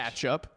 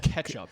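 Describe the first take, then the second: First: The first vowel sounds like 'catch'. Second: The first vowel sounds like 'ketch'. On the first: The speaker calls it wrong. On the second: The speaker calls it right. "it's ketchup with an E"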